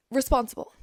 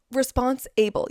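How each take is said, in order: First: Said in the usual way. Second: "Response able" said as two separate words; split into two words. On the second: Shown as a demonstration. Breaking down responsibility for listeners, "Response able" split in two. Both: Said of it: "You are able to respond".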